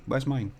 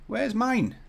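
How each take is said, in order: First: Said in the usual way. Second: Much higher plaintive question; high-pitched complaint. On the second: Pretend. Streamer hunting for his own model, high plaintive voice. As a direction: wail it lightly, pitched right up. Searching in vain, asks again.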